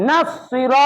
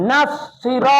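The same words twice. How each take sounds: The two takes are said the same way.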